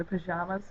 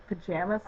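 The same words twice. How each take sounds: First: "pajamas" with an open jah in the middle; southern "pajamas". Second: "pajamas" with a short jam in the middle; local "pajamas". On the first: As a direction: say "pajamas" with the a of father. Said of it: "but I say the pajamas". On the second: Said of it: "Most people here say pajamas". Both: Shown as a demonstration.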